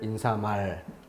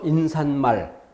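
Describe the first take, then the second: First: No extra n sound is added before mal. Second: An extra n sound is added before mal. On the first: The speaker calls it right. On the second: The speaker calls it wrong.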